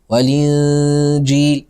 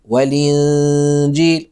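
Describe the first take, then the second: No difference in how they are said.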